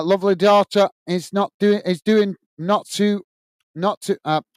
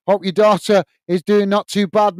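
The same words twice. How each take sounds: First: Stumbling over "is doing not too", words jumbled and restarting; tongue-tied stumble. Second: Said in the usual way. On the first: Real, not acted. Wishing Rick's daughter well, tangled in his words, tongue-tied. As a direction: trip over the words and lose the thread. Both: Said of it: "I'm getting tongue-tied here".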